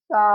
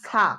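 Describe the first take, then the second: First: সা with a soft th-like start; soft correct sa. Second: সা with a sharp hissed s; wrong hard sa. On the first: Teacher models the letter for learners, soft সা. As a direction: say সা gently from the tongue tip. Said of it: "সা নরম করে পড়তে হবে". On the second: Teacher warns learners off the mistake, wrong hard সা. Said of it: "ভুল হবে". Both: Shown as a demonstration.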